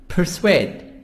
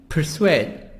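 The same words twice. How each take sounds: No difference in how they are said.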